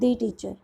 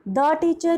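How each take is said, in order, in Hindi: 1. 'The' को लंबे 'ee' स्वर के साथ बोला जाता है। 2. 'The' को छोटे 'uh' स्वर के साथ बोला जाता है।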